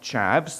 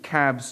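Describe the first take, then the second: First: The word begins with a ch sound. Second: The word begins with a k sound. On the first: The speaker calls it wrong. "not chavs" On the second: The speaker calls it right. "make sure we pronounce it cabs"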